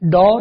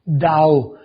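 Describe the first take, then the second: First: The vowel is a plain, unchanging 'aw' sound. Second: The vowel glides as an 'aao' sound. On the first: The speaker calls it wrong. "तो ये डॉ डॉ नहीं बनेगा" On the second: The speaker calls it right. "उसकी आओ sound आएगी primary"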